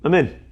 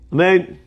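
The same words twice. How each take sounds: First: The first vowel is rushed and reduced. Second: The final n sound is dropped. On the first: The amen is grabbed too quickly. "You grabbed the amen so fast that you didn't say a proper ah" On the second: The amen is cut off before it ends. "you don't say the last nun"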